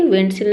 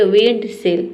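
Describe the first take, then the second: First: विंडशील्ड as "win-sel", no D after N; silent D. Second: विंडशील्ड with a clear D, "wend-seld"; D sounded. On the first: Shown as a demonstration. Teacher corrects the reading, last विंडशील्ड with silent D. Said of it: "नहीं होता है विंडशील्ड". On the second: Retold or imitated. Teacher imitates those who don't know, विंडशील्ड with sounded D. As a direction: voice the D after the N in विंडशील्ड. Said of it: "जिसको नहीं पता है वो पढ़ेंगे".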